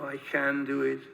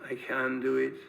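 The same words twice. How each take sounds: No difference in how they are said.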